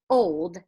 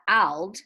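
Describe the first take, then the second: First: The O is said as a long O. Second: The O is said as a short O. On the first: The speaker calls it right. "because it says old" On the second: The speaker calls it wrong. "not old"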